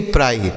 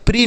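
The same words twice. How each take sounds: First: "प्राई" with an open eye diphthong; PRI read as "pry". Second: "प्री" with an ee vowel, pitched high; PRI read as "pree". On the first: Teacher correcting pupils' reading, "प्राई" with eye sound. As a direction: say "प्राई" to rhyme with "fry". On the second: Teacher rejecting a reading for pupils, "प्री" with long ee. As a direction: say "प्री" to rhyme with "free". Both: Shown as a demonstration. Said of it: "प्री नहीं प्राई".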